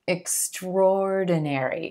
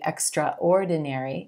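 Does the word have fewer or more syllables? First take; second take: fewer; more. First: The word is said with fewer syllables. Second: The word is said with more syllables. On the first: The speaker calls it right. "fewer syllables than are actually pronounced" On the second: The speaker calls it wrong. "I know it looks like it should be extraordinary"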